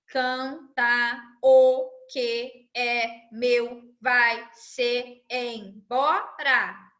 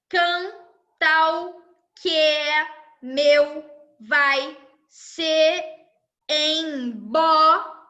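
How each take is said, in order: First: Each vowel is said as its own syllable. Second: Neighbouring unstressed vowels merge into single syllables. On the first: "Essa é a divisão gramatical" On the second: "Agora a divisão poética"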